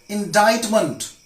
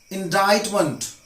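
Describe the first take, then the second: Both takes have the same delivery.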